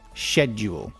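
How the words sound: It is said British, beginning like shed. "schedule, shed, is British"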